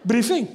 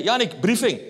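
First: Higher and a bit louder, snapping out one word like a major; mock officer barking a command; husband imitating his wife the major, mock commanding; barked military order. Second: A touch of a brisk commanding wife; clipped order like a superior officer; wife summoning husband to a briefing, lightly commanding; curt wife's order. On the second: Retold or imitated. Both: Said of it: "Zo praat hij tegen mij".

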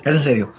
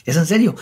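First: Said in the usual way. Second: SERIO higher, as a surprised question; pregunta incrédula. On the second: Retold or imitated. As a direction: ask "serio" on a raised pitch. Pregunta retold al guía. (pregunta con «serio» en tono más alto)

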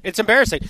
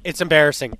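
First: "embarrassing" pushed higher and louder the second time; emphatic repeat. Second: Said in the usual way. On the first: Real, not acted. Host repeats his verdict on the loss, higher and louder on "embarrassing".

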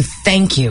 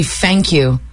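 First: Said in the usual way. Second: "Thank you" with th as f. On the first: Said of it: "as opposed to". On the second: Retold or imitated. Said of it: "[name] will say".

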